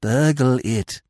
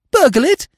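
First: Said in the usual way. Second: Very high, loud incredulous question; shocked echo. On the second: A narrator's reading. Freddy echoes Eve's plan, shocked echo. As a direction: squeak it back in alarm.

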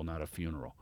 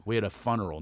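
First: Said in the usual way. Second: "funeral" said as "fun-eral", first vowel like the word fun; "funeral" pronounced fun-eral, not few-neral; fun-eral pun. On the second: Shown as a demonstration.

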